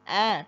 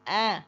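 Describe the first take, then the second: Both takes have the same delivery.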